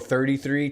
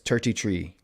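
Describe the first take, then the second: First: It is said with a th sound at the start. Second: It is said with a t sound at the start.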